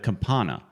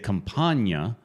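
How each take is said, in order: First: The middle consonant is a plain 'n' sound. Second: The middle consonant is an 'ny' sound. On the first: The speaker calls it right. "It's Campana" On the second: The speaker calls it wrong. "why do people say it wrong?"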